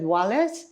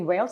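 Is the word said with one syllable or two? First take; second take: two; one. First: The word is said as two syllables. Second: The word is said as one syllable. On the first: The speaker calls it wrong. "I said the country and I pronounced it wrong" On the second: The speaker calls it right. "I didn't say Wales"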